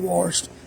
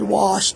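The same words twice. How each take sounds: First: It is said in a country accent. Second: It is said without the country accent. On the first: This is how the speaker naturally talks. The speaker calls it wrong. "I'm just country" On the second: The speaker avoids being teased. The speaker calls it right. "So I said washed instead of"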